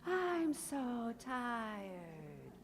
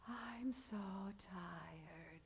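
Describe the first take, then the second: First: Very slow sighed "I'm so tired", higher; sighing demo. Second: Whispered, very slow sighing "I'm so tired"; breathy sighing demo of stiff folds. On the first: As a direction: let the words fall out on a sigh. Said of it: "It's that sigh". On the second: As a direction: sigh it out on a whisper. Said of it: "Everyone say". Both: Shown as a demonstration.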